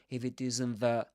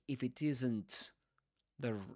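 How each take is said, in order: First: The t in isn't is dropped. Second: The t in isn't is clearly pronounced. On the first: The speaker calls it right. "dropping the, the t" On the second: The speaker calls it wrong. "he doesn't say"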